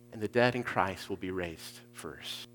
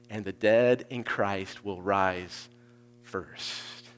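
First: Said in the usual way. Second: Slow reading. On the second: Shown as a demonstration. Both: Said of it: "work through it really slowly".

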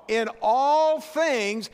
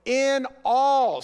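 First: In all things drawn out slowly, each word weighted; slow stress. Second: In all called out loud to the room. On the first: Preacher slowly stressing the words to his church. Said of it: "say with me". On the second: Preacher calling out to his congregation, loud. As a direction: ring out in all to stir the church. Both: Real, not acted.

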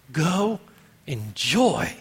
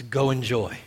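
First: "Go", a pause, then "enjoy" stretched out; separated emphasis. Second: Said in the usual way. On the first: Acted. Preacher repeating God's command to Adam, "Go enjoy" slow and separated. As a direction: set "Go" apart and swell on "enjoy".

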